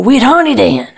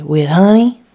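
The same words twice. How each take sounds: First: High, loud outburst giving in; exasperated yell. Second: Loud, eager rising question; little girl asking. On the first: A narrator's reading. Mother yelling at her wailing child, exasperated. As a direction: yell it at the end of your patience. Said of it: "and I yell". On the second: Acted. Little Lucy asking mother about her biscuit, eager. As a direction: pipe up hopefully like a small child.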